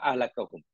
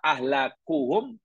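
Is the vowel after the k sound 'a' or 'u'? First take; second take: a; u. First: The vowel after the k is a. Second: The vowel after the k is u. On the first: "Juga dengan nasabkannya dibaca fathah" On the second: "Yakni dengan rafaknya, merafakkan maknanya mendomahkannya"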